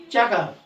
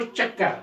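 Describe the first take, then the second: First: चक्कर said quickly with a single k; unmarked pronunciation. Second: चक्कर with a held double k, chak-kar; doubled consonant. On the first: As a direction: say चक्कर short, as cha-kar. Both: Shown as a demonstration. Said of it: "इसके ऊपर हम तशरीह डालेंगे".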